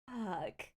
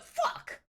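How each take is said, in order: First: It is said in a light, playful tone. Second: It is said in a harsh, hostile tone. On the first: It is affectionate teasing. The speaker calls it right. "but fuck, you know, it's all about that inflection" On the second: It is a real insult. The speaker calls it wrong. "not the fuck"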